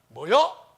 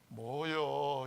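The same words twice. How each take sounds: First: It sounds angry. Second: It sounds disappointed.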